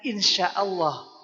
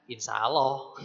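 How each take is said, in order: First: The consonant is pronounced as sh. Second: The consonant is pronounced as plain s. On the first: The speaker calls it right. "Ngomongnya sya" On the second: The speaker calls it wrong.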